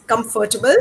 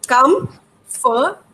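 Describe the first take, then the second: First: Comfortable run together as one quick word; comfortable blurred into a single lump; shortened word. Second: Comfortable spelled out in sound, com-for-ta-ble; broken into syllables. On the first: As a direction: say comfortable whole, no breaks between parts. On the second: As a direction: pull comfortable apart into clear separate beats. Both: Shown as a demonstration. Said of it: "I had to break up that word for him".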